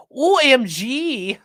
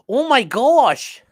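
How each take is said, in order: First: Letters spelled out slowly, higher and louder; spelled-out OMG. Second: Drawn out, louder and higher, stretched slowly; slow Midwestern oh my gosh. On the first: Streamer spelling out OMG before correcting it, slow and emphatic. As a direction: drag out O, M and G. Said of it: "actually, you have to be like". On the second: Streamer showing chat the proper Midwestern oh my gosh, slow and drawn out. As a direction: stretch every word like a Minnesotan mom. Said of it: "you have to be like". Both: Shown as a demonstration.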